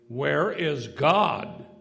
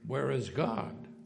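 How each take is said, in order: First: It is said with a louder, raised voice. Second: It is said at a normal, softer volume.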